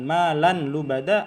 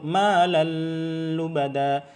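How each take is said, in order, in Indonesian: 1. Bunyi n dibaca jelas sebelum l. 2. Bunyi yang menyatu ditahan lama dengan dengung sengau. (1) "bukan malan lubada" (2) "Terlalu lama, dengan gunnah itu salah"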